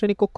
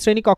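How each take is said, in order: First: The vowel in the second word sounds like 'o'. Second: The vowel in the second word sounds like 'a'. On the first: "শ্রেণী কক্ষ বলবেন" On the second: "আপনি শ্রেণী কক্ষ বলতেন"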